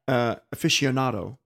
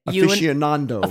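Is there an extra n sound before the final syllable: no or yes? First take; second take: no; yes. First: The word ends in nado with no extra n. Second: An extra n sound comes before the final do. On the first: The speaker calls it right. "The right way" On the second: The speaker calls it wrong. "And how do you guys say it?"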